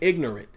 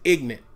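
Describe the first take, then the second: First: The word is said in full, every syllable. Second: The word is said in a shortened, casual form. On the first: The speaker calls it right. "not even ignorant" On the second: The speaker calls it wrong. "I didn't even say it correctly. I said ignorant"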